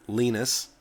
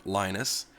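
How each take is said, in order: First: LEE-nus, short i as in Linus Torvalds' own way. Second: "Linus" with a long i, LYE-nus; Linus, English way. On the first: Naming the Linux creator, said LEE-nus. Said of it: "The name Linux is a combination of the name". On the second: Giving the English version of the name, LYE-nus. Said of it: "Linus, or Linus". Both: Shown as a demonstration.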